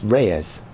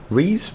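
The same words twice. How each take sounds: First: Reyes said "RAY-ez", falling. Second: Rees as a single long "ee", rising like a question; one-syllable Rees. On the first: Host trying another reading of a surname, tentative. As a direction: try "Reyes" with an "ay" sound, falling. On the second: Host guessing a viewer's surname, questioning. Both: Shown as a demonstration. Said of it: "I'm doing it again".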